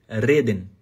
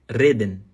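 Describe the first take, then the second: No difference in how they are said.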